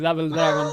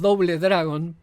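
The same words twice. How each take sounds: First: The name is said with English sounds. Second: The name is read with Spanish-style sounds. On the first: This is the official way to say it. The speaker calls it right. "Sabemos que se dice Double Dragon" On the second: This is how everyone locally calls it. The speaker calls it wrong. "Nosotros le decimos Double Dragon porque nadie le dice de otra manera"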